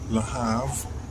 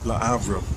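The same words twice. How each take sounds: First: It is said with an American pronunciation. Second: It is said with a French pronunciation. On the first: "I guess it's the American way" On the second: "the French way, you take the L and combine it with the next word"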